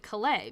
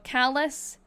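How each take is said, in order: First: The name is said the French way. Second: The name is said the English way. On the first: The speaker calls it wrong. "because that would be how you'd pronounce it in French" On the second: The speaker calls it right. "it's pronounced callus, so that's correct"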